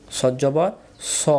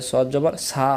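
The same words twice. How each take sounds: First: স as a rounded "saw"; no aa-vowel. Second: সা with an open "aa"; wrong aa-vowel. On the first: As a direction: end সদ জবর on rounded স, never "saa". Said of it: "আকার হবে না". (সদ জবর স, আকার ছাড়া গোল উচ্চারণ) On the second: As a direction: end সদ জবর on a spread "saa". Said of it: "তখন উচ্চারণের ভুল হয়ে যাবে". (সদ জবর সা, আকার দিয়ে ভুল) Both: Shown as a demonstration.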